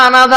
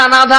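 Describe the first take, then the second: Both takes have the same delivery.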